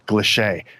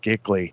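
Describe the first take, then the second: First: The word sounds like 'clee-shay'. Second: The word sounds like 'gick-lee'. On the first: The speaker calls it right. "excuse me" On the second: The speaker calls it wrong. "That's not how you pronounce that word"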